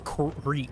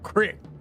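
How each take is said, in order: First: The vowel is long, like 'ee'. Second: The vowel is short, like 'ih'. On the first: The speaker calls it right. "two E's does is creek" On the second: The speaker calls it wrong. "People who pronounce it crick are insane"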